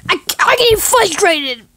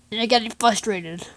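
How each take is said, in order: First: High, loud, stammered outburst; yelled exasperation; frustrated. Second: Said in the usual way. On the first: Acted. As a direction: burst out as if at the end of your rope.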